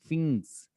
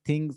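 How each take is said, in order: First: The word begins with an f sound. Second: The word begins with a th sound. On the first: "तो उसको कहते हैं फिंग्स" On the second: "जैसे वो थिंग बोलते हैं ना"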